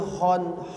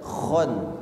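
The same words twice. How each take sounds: First: The first sound is a light h. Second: The first sound is a thick kh. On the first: The speaker calls it wrong. "yang kedengar malah huruf ha" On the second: The speaker calls it right. "Harusnya khon, khon. Ya, kha-nya tebal"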